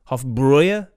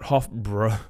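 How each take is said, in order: First: The second syllable has an 'oy' vowel. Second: The second syllable has a plain 'ow' vowel. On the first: The speaker calls it right. "There's the umlauts above the A in the brow part. So it's Hofbräu" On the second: The speaker calls it wrong. "I've been pronouncing this wrong"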